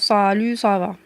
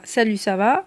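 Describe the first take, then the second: First: The consonants are exaggerated with a heavy, emphatic sound. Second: The consonants are pronounced plainly and naturally.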